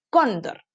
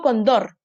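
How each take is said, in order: First: "cóndor" said slowly as CÓN-dor; stress on first syllable. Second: "condor" said as con-DOR; wrong stress, last syllable. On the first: Teacher corrects it for children, "cóndor" stressed on CÓN. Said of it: "Se carga en la penúltima". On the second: Teacher shows children the wrong way, "condor" stressed on DOR. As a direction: shift the weight onto DOR in "condor". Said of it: "porque yo no digo condor". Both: Shown as a demonstration.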